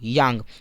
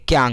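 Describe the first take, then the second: First: The word begins with a y sound. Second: The word begins with a k sound.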